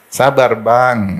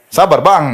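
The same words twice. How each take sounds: First: "Sabar, Bang" drawn out very slowly and gently; calm your husband with "Sabar, Bang"; soft, slow "Sabar, Bang". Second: "Sabar, Bang" higher and louder, impatient; sharp "Sabar, Bang". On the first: ("Sabar, Bang" pelan dan lembut) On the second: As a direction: snap "Sabar, Bang" at him. ("Sabar, Bang" diucapkan keras dan ketus) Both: Shown as a demonstration. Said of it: "ini harus halus ngomongnya".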